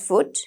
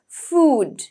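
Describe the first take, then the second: First: The vowel is short, as in foot. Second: The vowel is a long rounded oo. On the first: The speaker calls it wrong. "Usually we pronounce it as foot" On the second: The speaker calls it right. "the proper pronunciation"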